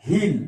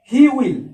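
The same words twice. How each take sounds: First: "he'll" as one syllable; contracted form. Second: "He will" as two words, high; full form. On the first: Teacher contrasting long and short forms, "he'll" said as one word. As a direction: merge he and will into "he'll". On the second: Teacher contrasting long and short forms, "He will" in full. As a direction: sound both "He" and "will" fully. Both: Shown as a demonstration. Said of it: "দেখো হিড সংক্ষেপে".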